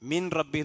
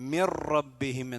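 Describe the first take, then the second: First: The n is pronounced clearly before the r. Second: The n merges fully into the following r. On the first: The speaker calls it wrong. "എന്ന് ഒരിക്കലും ഓതാൻ പാടില്ല" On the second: The speaker calls it right. "മിർ റബ്ബിഹിം എന്നാണ് അതുണ്ട്"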